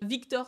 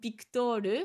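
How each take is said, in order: First: The name begins with a V sound. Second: The name begins with a B sound. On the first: The original French pronunciation. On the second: How a Japanese speaker would say it.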